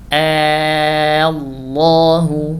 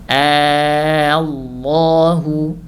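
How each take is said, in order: No difference in how they are said.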